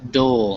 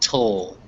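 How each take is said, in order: First: The syllable starts with a soft d sound. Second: The syllable starts with a crisp t sound. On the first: The speaker calls it right. "make sure that it's um dull" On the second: The speaker calls it wrong. "not tull"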